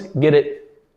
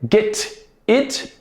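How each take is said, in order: First: The T is a soft sound linking the words. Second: The T is a full, hard T sound.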